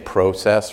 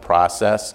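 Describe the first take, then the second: First: The word is said with a Canadian pronunciation. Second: The word is said with a non-Canadian pronunciation. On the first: The speaker is fitting in as a Canadian. The speaker calls it right. "I'm learning to be truly Canadian, say process" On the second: The speaker sounds like an outsider. The speaker calls it wrong. "rather than process"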